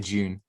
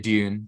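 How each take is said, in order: First: The word begins with a j-like sound. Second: The word begins with a plain d sound. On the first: "here in the U K we'd say June" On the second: "Americans would say Dune"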